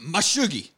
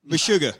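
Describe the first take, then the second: First: "[name]" said with an -ee ending, higher. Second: "[name]" said with an -ah ending. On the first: Podcaster riffing on the nickname, "[name]" ending in -ee. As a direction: say "[name]" as muh-SHOO-ghee. Trying versions of a misremembered name. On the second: Podcaster landing on the band's name, "[name]" ending in -ah. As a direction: say "[name]" as muh-SHOO-guh. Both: Real, not acted.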